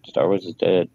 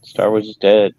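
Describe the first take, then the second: First: Said in the usual way. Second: Loud declaration. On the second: Real, not acted. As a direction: proclaim it loudly, higher. Declares it loudly, then repeats.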